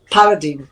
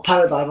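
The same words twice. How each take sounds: First: "paradigm" with last syllable like "deem"; own pronunciation. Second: "paradigm" with last syllable like "dime"; host's pronunciation. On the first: Speaker gives own version to the host, "paradigm" ending in "deem". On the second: Correcting to the host's way, "paradigm" ending in "dime". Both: Shown as a demonstration. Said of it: "as you say it".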